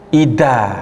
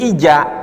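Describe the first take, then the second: First: The middle consonant is a d sound. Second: The middle consonant is a j sound. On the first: "bisa tercampur dengan makhraj huruf dal" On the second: "Bisa berubah menjadi huruf jim"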